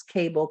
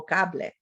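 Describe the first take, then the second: First: CABLE as "KAY-bul", final e silent; English pronunciation. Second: CABLE as "KAH-bleh", final e sounded; Spanish pronunciation. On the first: Teacher contrasts final stable syllables, English pronunciation. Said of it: "the E at the end". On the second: Teacher contrasts final stable syllables, Spanish pronunciation. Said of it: "and we do in Spanish". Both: Shown as a demonstration.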